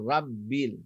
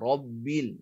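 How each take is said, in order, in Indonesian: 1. Bunyi r diucapkan tipis dan ringan. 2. Bunyi r diucapkan tebal dan berat. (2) "tebalkan bunyi dia"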